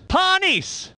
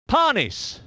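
First: High driver's name call; animated commentator call; excited name call. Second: Said in the usual way. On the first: Acted. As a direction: announce the name with a lift of excitement.

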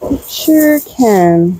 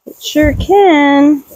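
First: Slower mock gotcha. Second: Slow mock gotcha. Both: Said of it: "And you're like".

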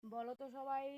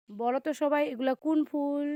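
First: Said in the usual way. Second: Loud call, pitched up. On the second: Real, not acted. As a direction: shout the question across the garden. Repeats question, calling out loud.

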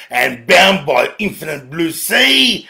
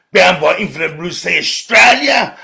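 First: Said in the usual way. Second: Bound by infinite blue sea Australia, shouted; shouted repeat. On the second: Real, not acted. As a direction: call it out proudly. Repeats the phrase, now shouting.

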